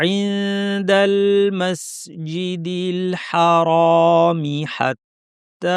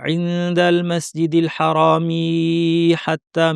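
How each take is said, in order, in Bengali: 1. 'hatta'-র আগে 'mi' ছোট করে পড়তে হবে। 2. 'hatta'-র আগে 'mi' লম্বা করে ধরে পড়তে হবে। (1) "মাঝখানে টান না হয়" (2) "এই যে লম্বা করে ফেললাম এটা কিন্তু ভুল"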